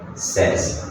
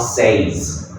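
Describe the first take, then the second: First: The vowel is a short 'eh' sound. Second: The vowel is a long 'ay' sound. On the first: The speaker calls it right. "Like this, eh" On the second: The speaker calls it wrong. "It's not says"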